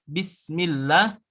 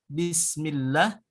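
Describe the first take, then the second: No difference in how they are said.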